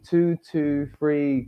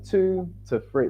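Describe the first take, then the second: First: The middle word has a full, strong vowel. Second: The middle word has a short, weak vowel. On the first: The speaker calls it wrong. "if you say two two, it sounds like a train" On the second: The speaker calls it right. "like two to three"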